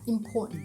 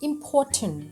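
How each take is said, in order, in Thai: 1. เสียง t ถูกกลั้นไว้ที่คอ 2. เสียง t ถูกปล่อยออกมาเต็มที่ (1) "hold กลั้นเอาไว้แบบนี้ค่ะ" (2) "จะพูดตามตัวสะกดนั่นแหละ"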